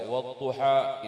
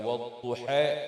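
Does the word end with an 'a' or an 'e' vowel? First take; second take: a; e. First: The final vowel is a plain open 'a'. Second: The final vowel is tilted toward 'e'. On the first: This is the standard reading without imalah. "bacaan Sayyidina Umar yang membaca wadduha" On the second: This is the imalah reading used by the Bedouin. "Bacaan seorang badui dengan membaca wadduha"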